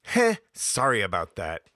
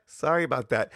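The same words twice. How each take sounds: First: A little embarrassed heh then sorry; mock chuckled apology. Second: Sheepish laughing apology; laughing sorry. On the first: Shown as a demonstration. Host mimics own flippant apology, chuckling. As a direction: shrug it off with a chuckle. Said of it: "is not an apology". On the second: Real, not acted. Host laughing off an awkward remark, chuckling.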